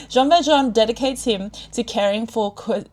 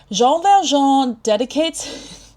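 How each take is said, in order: First: Said in the usual way. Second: Jean Valjean in a slow, higher, exaggerated French accent; hammed-up French Valjean, slow and higher; mock French flourish. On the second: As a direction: stretch out Valjean the French way, rising. Dramatic French take, then retake.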